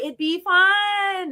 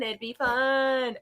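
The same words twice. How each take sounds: First: "fun" stretched slowly, higher and coaxing; drawn-out coaxing. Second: Said in the usual way. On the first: Shown as a demonstration. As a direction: draw out "it'd be fun" slowly, pitch up on "fun".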